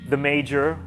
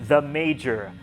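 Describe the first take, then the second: The two takes are said the same way.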